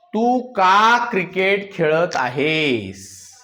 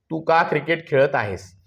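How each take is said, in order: First: Drawn-out words, at half speed; slow dictation. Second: Said in the usual way. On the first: Shown as a demonstration. Teacher giving the class a sentence to translate, slow dictation. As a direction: dictate it slowly, stretching each word.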